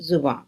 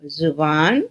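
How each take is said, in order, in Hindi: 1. शब्द नासिक्य स्वर पर खत्म होता है। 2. शब्द पूरी n ध्वनि पर खत्म होता है।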